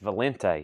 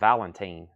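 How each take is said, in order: First: The name ends without a 'tine' sound. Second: The name ends with a 'tine' sound. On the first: The speaker calls it right. "they're like it's Valente" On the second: The speaker calls it wrong. "I've been saying Valentine"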